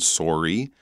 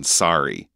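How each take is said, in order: First: It has a Canadian accent. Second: It has an American accent.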